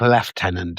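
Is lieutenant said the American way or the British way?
British. It is said the British way, with an f sound. The speaker calls it wrong. "There's no F's"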